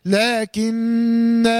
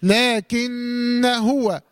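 First: لكن said as "laakinnaa", long hum on the n and final alif sounded; stopping pronunciation. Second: لكن هو said "laakinna huwa", held n, short a before huwa; joined recitation. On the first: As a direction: recite لكن at a stop, very slowly, ending on a held "naa". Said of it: "لما أقف هقول إيه؟". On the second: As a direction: run لكن into هو with the alif dropped, slowly chanted. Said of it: "طب إذا وصلت هقول". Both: Shown as a demonstration.

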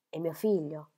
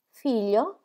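First: Said in the usual way. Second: A startled "Figlio?" rising high at the end; surprised. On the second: Acted. Molly hearing of his son, surprised "Figlio?". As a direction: catch the word "Figlio?" in sudden surprise. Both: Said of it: "esclamò Molly, sorpresa".

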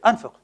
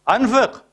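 First: Said in the usual way. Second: أنفق said again, higher and pressed; preacher insisting his listeners spend, higher; emphatic repeat. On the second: Shown as a demonstration. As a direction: push the second أنفق up as a command.

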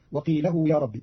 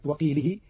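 First: وقيله said "wa-qeelahu", lengthened hu; fatha lam, damma ha. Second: Said in the usual way. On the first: Shown as a demonstration. Teacher showing Qalun's reading, وقيله as "wa-qeelahu". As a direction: say وقيله with "la-hu" instead of "li-hi". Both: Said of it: "بنصب اللام وضم الهاء".

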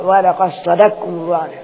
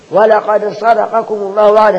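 First: صدقكم as sadakkum, qaf merged into kaf; qaf becomes kaf. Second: Said in the usual way. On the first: Shown as a demonstration. Teacher showing how the verse is read, صدقكم as sadakkum. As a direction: recite صدقكم with one doubled kaf, no qaf. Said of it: "تبقى كاف على طول". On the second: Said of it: "نقول ولا ص".

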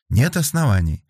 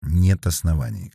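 First: Higher-pitched confirming echo. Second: Muted, hollow. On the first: Investigator confirming Felix's conclusion, higher and firm. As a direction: confirm it back, pitched up and falling. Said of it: "подтвердила следователь". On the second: Felix concluding to Darya that there are no grounds, muted. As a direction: say it dully, as a finished matter. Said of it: "глухо закончил Феликс". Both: A narrator's reading.

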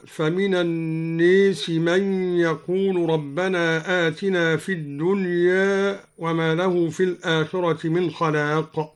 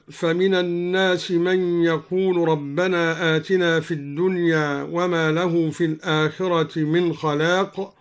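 First: "الناس" said an-nees, "الدنيا" half-tilted to dunye; imala and taqlil. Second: Said in the usual way. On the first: Shown as a demonstration. Teacher shows al-Duri's reading, "الناس" as an-nees, "الدنيا" as dunye. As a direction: tilt "الناس" fully to ee, "الدنيا" only slightly. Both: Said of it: "أمال لفظ الناس وقلل لفظ الدنيا".

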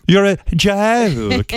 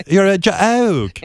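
First: Very slow, deliberate mock British scolding; scolding Spicer in a British accent; British accent yelling. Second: Put-on slow British accent with weight on joke; mocking a British host in a British accent; British accent scolding. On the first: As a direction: drag out you're a joke in a British accent. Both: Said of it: "I love that accent when somebody yells".

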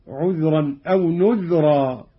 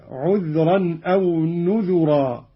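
First: "نذرا" as "nudhra", two syllables; slow recitation, "نذرا" with no vowel after dh; unvoweled dhal. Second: "نذرا" as "nudhura", three syllables; slow recitation, u after the dh in "نذرا"; damma on dhal. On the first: Teacher reads the verse before the variant, "نذرا" as nudhra. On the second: Teacher demonstrates Qalun's reading, "نذرا" as nudhura. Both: Shown as a demonstration. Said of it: "بضم الذال هكذا".

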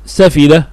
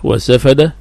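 First: سفد with an i in the middle syllable; kasra on fa. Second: وسفد with an a in the middle syllable; fatha on fa. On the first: Teacher gives students the purer form, with kasra. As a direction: say سفد as "safida", short i after the f. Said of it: "إذن سفد أفصح". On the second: Teacher gives students the other accepted form, with fatha. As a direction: say وسفد as "wa-safada", short a after the f. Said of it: "سفد من باب فعل يسفد". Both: Shown as a demonstration.

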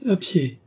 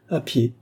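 First: "À pied" lifted high in a pitying echo. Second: Terse and matter-of-fact, barely moving the voice; "À pied" said short and offhand, no emphasis; laconic. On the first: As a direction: repeat "À pied" as a young lady touched with pity. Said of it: "répéta André avec une certaine expression de pitié". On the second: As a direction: toss off "À pied" in a clipped reply. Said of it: "dit laconiquement Gilbert". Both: A narrator's reading.

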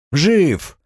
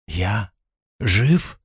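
First: High, firm жив as an exclamation; confirming. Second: Disbelieving. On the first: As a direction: answer жив brightly high, then falling. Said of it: "ответил Артём". (уверенное, высокое «жив!») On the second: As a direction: pause after я, then lift жив in doubt. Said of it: "недоверчиво проговорил он". (недоверчивое, тихое «жив?» с подъёмом) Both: Acted.

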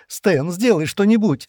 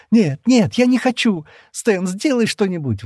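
First: Slow, high desperate plea; drawn-out high plea for help; begging. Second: High, loud hysterical screaming; high panicked shrieks, slowing into a plea. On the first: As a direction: beg him to save her. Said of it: "взмолилась она". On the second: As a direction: scream in hysterics, losing control. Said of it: "в истерике закричала она". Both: A narrator's reading.

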